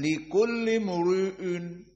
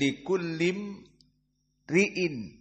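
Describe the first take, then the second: First: The r sound is heavy and full. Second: The r sound is thin and light. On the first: The speaker calls it wrong. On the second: The speaker calls it right. "maka ra muraqqaqah"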